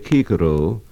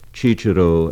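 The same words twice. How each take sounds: First: The word begins with a hard k sound. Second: The word begins with a ch sound. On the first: This is the classical Latin pronunciation. The speaker calls it right. "a classical scholar will say Cicero" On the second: This is the Italian pronunciation. The speaker calls it wrong. "Cicero as it is in Italian"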